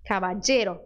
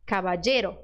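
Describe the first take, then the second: The two takes are said the same way.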